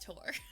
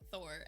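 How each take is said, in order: First: The name begins with a plain t sound. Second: The name begins with a th sound. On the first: This is the original Norse way of saying it. The speaker calls it right. "in Norse it's Tor" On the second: This is the common reading of the name. The speaker calls it wrong. "People pronounce it Thor"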